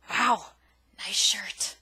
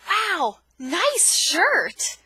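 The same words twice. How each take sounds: First: The tone is mocking and sarcastic. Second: The tone is warm and sincerely admiring. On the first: The speaker does not like the shirt. "Just a polar opposite of meaning. There was a different tone" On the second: The speaker really likes the shirt. "that obviously is conveying that I really like your shirt"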